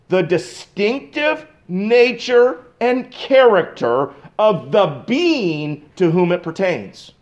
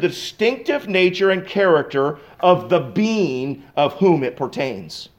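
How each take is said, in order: First: It is said more slowly. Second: It is said at a normal pace.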